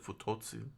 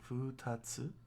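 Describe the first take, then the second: First: The second syllable has an o vowel. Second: The second syllable has an a vowel. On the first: The speaker calls it wrong. "I've been mispronouncing. I was, I was pronouncing it futotsu" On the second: The speaker calls it right. "it's uh, futatsu"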